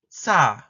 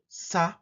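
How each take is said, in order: First: The s sound is tense and tight. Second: The s sound is plain and lax. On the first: "Alveolar fricative tense" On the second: "Alveolar fricative, plain or aspirated"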